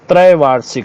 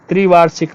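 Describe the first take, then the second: First: The first syllable has an ai vowel. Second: The first syllable has a short i vowel. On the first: The speaker calls it right. "त्रैवार्षिक होता है" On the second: The speaker calls it wrong. "त्रिवार्षिक नहीं"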